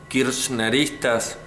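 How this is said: The word is pronounced the Spanish way. "más en español"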